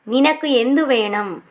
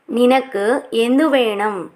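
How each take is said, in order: First: Said in the usual way. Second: Slow, clear teacher repeat of నినకు ఎందు వేణం; drawn out for learners to copy; slow model repeat. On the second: Shown as a demonstration. (నెమ్మదిగా, స్పష్టంగా మళ్ళీ చెప్పడం)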